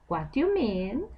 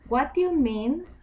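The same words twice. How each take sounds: First: It sounds like asking for more. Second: It sounds like agreement.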